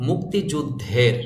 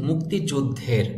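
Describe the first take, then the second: Both takes have the same delivery.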